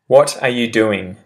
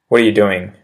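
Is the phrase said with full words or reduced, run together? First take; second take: full; reduced. First: Every word is said fully and separately. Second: The words are run together and reduced, quickly. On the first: "I say the proper English phrase" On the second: "I'll repeat the pronunciation shift one"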